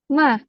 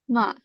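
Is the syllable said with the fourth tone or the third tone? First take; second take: fourth tone; third tone. First: The syllable is said with the fourth tone. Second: The syllable is said with the third tone. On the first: It means scolded. "the fourth is ma" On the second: It means horse. "the third tone is ma"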